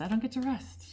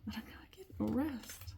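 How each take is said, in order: First: High, emphatic protest; emphatic complaint. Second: Breathless whispered repeat. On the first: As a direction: insist on it, half joking. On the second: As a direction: whisper it, worn out. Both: Real, not acted. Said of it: "I'm just saying I'm out of breath".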